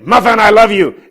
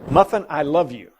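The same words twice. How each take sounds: First: It is said in a harsh, angry tone. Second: It is said in a warm, gentle tone. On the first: The listener feels threatened. "she tucks her tail and runs" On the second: The listener feels loved and content. "she would wag her tail"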